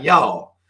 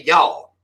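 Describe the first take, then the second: First: A second drawled Southern y'all. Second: A drawled Southern y'all, North Carolina style. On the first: Country boy showing off his talk, Southern y'all. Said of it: "You can say some shit like". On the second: Showing New York folks a little Southern piece, Southern y'all. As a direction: drop in a country y'all for the New York crowd, Southern accent. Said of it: "You can say". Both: Shown as a demonstration.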